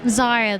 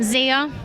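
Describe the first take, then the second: First: The name sounds softer and less aggressive. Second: The name sounds sharper and more aggressive. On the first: The speaker calls it right. "Zaya, though" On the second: The speaker calls it wrong. "that one bothers me ... kind of more aggressive"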